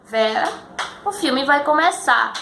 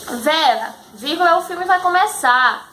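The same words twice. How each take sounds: First: "Vera" then a real pause before "o filme vai começar", slower; pause after Vera. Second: "Vera, vírgula" said with the punctuation read out, then the phrase higher; reading the comma as a word after "Vera"; naming the comma aloud. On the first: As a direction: let the comma breathe after "Vera". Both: Shown as a demonstration. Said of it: "A gente tem uma pausa".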